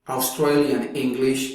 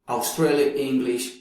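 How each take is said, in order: Both takes have the same delivery.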